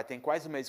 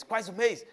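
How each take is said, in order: First: Said in the usual way. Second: Incredulous echo, pitched right up; alarmed father. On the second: Retold or imitated. Father hearing how long his son waited, incredulous. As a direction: imitate Dad's shocked, high-pitched repeat.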